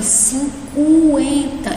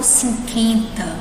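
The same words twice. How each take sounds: First: The u sound after the q is heard. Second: The u sound after the q is silent. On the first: The speaker calls it right. "Eu pronuncio o U" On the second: The speaker calls it wrong. "eu não falo cinquenta"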